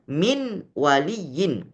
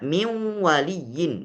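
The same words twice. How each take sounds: First: The n of min is pronounced clearly. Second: The n of min merges into the w. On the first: This is how it is written. "Padahal tulisannya" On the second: This is how it is recited. "Tapi dibaca min waliyin. Nunnya hilang"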